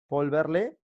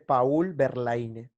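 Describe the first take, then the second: First: The name is said the French way. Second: The name is read out as it is spelled. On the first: "se pronuncia" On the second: "se escribe"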